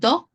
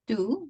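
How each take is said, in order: First: The vowel is not a pure Spanish-like u. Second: The vowel is a pure Spanish-like u. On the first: The speaker calls it wrong. "It's not do" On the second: The speaker calls it right. "like u in Spanish"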